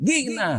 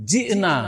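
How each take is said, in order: First: জি'না said as গিগনা with a hard g; mispronounced জি'না with g; Egyptian g for jim. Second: জি'না with a clear j sound; correct Quranic jim. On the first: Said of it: "এখন এক মিশরি যদি". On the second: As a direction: say জি'না properly, j as in jeep. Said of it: "আল্লাহ কি বলছেন?". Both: Shown as a demonstration.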